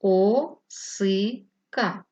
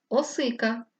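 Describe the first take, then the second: First: "О-си-ка" in three very slow, separate syllables; syllabified. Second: Said in the usual way. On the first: Shown as a demonstration. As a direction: tap out "О-си-ка" syllable by syllable.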